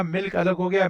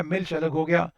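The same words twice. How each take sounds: First: मिल्क said with a hard k at the end; old pronunciation milk. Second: मिल्च ending in a ch sound; new pronunciation milch. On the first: Teacher contrasting old and new, मिल्क with a hard k. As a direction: end मिल्क on a crisp k sound. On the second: Teacher showing the modern word, मिल्च ending in ch. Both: Shown as a demonstration. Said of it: "फिर धीरे-धीरे उच्चारण change हो गया".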